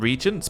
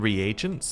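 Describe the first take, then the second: First: The word is said the speaker's usual, shorter way. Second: The word is said the other, longer way. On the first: This is how the speaker has always said it. "I've always called them regents" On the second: This is how someone else says it. "I heard somebody call them reagents"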